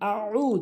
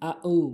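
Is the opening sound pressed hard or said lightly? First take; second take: pressed; light. First: The opening sound is pressed hard from the throat. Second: The opening sound is said lightly without pressure. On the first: The speaker calls it right. "বলতে হবে আউ চাপ দিয়ে, আইনের উচ্চারণ" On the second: The speaker calls it wrong. "এখানে আমরা বলি আউ আউ"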